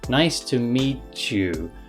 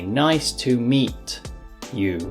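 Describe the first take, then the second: First: The words run smoothly together without breaks. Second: The words are said separately with breaks. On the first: "the meet and you get pushed together" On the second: "they break up the words meet and you"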